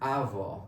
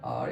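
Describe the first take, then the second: First: The word sounds like 'hour', with a glide. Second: The word sounds like the letter R. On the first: The speaker calls it right. "The right pronunciation of this word is our" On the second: The speaker calls it wrong. "mispronounce this word as R"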